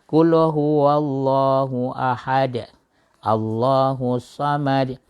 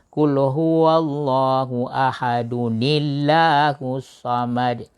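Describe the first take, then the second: First: It stops after ahad, with no added nun. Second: Ahad flows into Allahu through an added nun.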